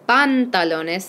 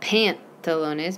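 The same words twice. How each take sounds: First: The a vowels are pure open 'ah' sounds. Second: The a vowels sound English-like, not pure 'ah'. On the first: The speaker calls it right. "make sure you say pantalones" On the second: The speaker calls it wrong. "not pantalones"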